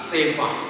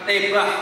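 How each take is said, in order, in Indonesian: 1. Konsonan di tengah itu bunyi v. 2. Konsonan di tengah itu bunyi b. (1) "tapi tevah" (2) "bukan tebah"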